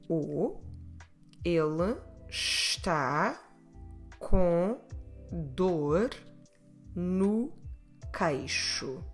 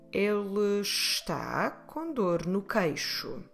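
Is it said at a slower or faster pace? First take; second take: slower; faster. First: It is said at a slower pace. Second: It is said at a faster pace.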